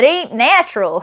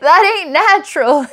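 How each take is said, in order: First: Mock country preacher warning, lightly done; hillbilly voice. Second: Hillbilly line repeated through laughter, higher; laughing hillbilly. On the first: Hillbilly scolding the listener, lightly voiced hillbilly accent. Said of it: "this hillbilly telling you". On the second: Retold or imitated. Hillbilly warning the listener, laughing through the hillbilly accent. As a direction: crack up while drawling it in mock hillbilly. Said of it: "I gotta tell it to you like that".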